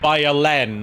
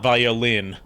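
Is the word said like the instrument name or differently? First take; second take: differently; instrument. First: It is not said like the instrument name. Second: It is said like the instrument name. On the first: It is a name meaning strength. The speaker calls it right. "Violin, not violin. It's the French word for uh, strength" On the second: It names the musical instrument. The speaker calls it wrong. "not violin"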